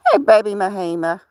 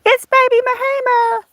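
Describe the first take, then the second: First: Said in the usual way. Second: Voicing the puppy, much higher; squeaky little dog voice; high pet voice. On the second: Owner speaking for her dog in a high voice.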